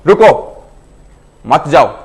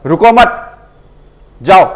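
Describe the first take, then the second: First: रुको loud and raised, pause, then मत जाओ; pause after रुको. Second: रुको मत joined, loud and high, then जाओ alone; urging to go: "रुको मत", pause, "जाओ"; pause after मत. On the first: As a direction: break after रुको, keep मत जाओ together. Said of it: "जैसे मैं बोलना चाहता हूँ". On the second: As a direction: run रुको into मत, break before जाओ. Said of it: "इसी चीज को अगर मैं दूसरे बोलता हूँ". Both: Shown as a demonstration.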